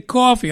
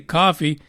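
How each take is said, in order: First: Coffee is said with a New York accent. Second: Coffee is said with a neutral accent.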